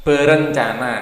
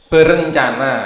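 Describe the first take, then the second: Both takes have the same delivery.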